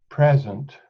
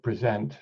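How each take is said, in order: First: "present" said PREZ-ent, stress on the first syllable. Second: "present" said pree-ZENT, stress on the second syllable. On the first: Lecturer trying one reading of Shakespeare's "present", first syllable stressed. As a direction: say "present" as PREZ-unt, like the noun. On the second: Lecturer trying the other reading of "present", second syllable stressed. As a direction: say "present" as pri-ZENT, like the verb. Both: Shown as a demonstration. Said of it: "or is it present".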